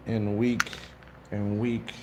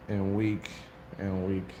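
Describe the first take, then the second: No difference in how they are said.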